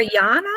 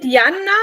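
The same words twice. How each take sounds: First: Jana with an open "ah", YAH-na; Jana with long A. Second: Jana with the A of banana; Jana with short A. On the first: Host offering the other reading, Jana with long A. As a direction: stretch the first vowel of Jana to "ah". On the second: Host checking the guest's name, Jana with short A. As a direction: say Jana as YAN-uh, flat A as in "cat". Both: Shown as a demonstration. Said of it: "Is it Jana or Jana?".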